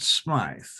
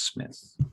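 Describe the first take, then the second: First: The vowel is a long 'eye' sound. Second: The vowel is a short 'i' sound. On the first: The speaker calls it wrong. "Some people pronounce it Smythe, but it's not" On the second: The speaker calls it right. "It's Smith"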